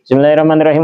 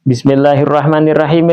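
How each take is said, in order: First: The words are rushed and the sounds slurred. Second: The words are quick but each sound is distinct. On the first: The recitation does not count as valid. The speaker calls it wrong. "bacaan Fatihahnya nggak jelas" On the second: The recitation counts as valid. The speaker calls it right. "satu nafas tetapi harus jelas"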